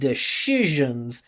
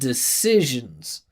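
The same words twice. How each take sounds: First: The middle consonant is a sh sound. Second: The middle consonant is an s sound. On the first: The speaker calls it wrong. "she adds a, a, a sh sound" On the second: The speaker calls it right. "when it should be an s sound"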